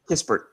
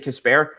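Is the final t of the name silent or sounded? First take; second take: sounded; silent. First: The name ends with a clear final t sound. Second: The name ends without a final t sound. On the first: The speaker calls it right. "Okay, Kispert" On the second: The speaker calls it wrong. "I keep wanting to say Kisper, because I took French for so long"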